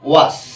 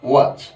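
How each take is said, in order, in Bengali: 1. শব্দটি শিসের মতো s ধ্বনি দিয়ে শেষ হয়। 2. শব্দটি গুনগুন করা z ধ্বনি দিয়ে শেষ হয়। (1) "আমরা এটা বলতে পারবো না ওয়াস" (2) "সেক্ষেত্রে আমরা কি বসাবো?"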